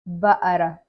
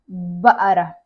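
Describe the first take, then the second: The two takes are said the same way.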